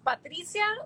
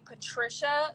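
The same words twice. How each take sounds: First: The name is said without an English accent. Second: The name is said with an English accent. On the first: The speaker calls it right. "It's Patricia" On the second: The speaker calls it wrong. "saying it with the English accent"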